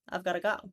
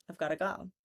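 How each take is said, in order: First: 'Got to' is reduced to 'gotta' with a schwa. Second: 'Got to' is reduced to 'gotta' with a schwa.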